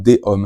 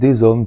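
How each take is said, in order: First: No z sound links into hommes. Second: A z sound links into hommes. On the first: The speaker calls it wrong. "tu ne diras jamais" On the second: The speaker calls it right. "tu dois faire la liaison"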